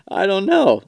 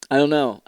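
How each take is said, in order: First: Pitched-up goofy I don't know; mock high whine on I don't know; high silly voice. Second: Said in the usual way. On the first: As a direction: squeak it out in a put-on voice. First take, high and far.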